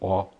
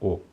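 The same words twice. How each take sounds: First: The vowel is an open O sound. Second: The vowel is a closed O sound. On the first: The speaker calls it right. "sendo esse O aberto. Então diga O" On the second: The speaker calls it wrong. "e não O"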